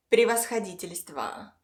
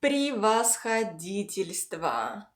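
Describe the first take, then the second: First: Said in the usual way. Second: Превосходительство slowly, syllable by syllable; slow pronunciation demo. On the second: Shown as a demonstration. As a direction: draw out превосходительство for learners. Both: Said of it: "the second part is".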